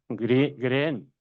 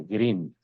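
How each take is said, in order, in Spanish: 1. La vocal es un sonido 'e' corto. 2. La vocal es un sonido 'ee' largo.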